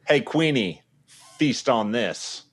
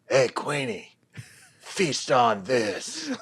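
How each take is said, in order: First: It is said in his normal voice. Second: It is said in a raspy Billy voice.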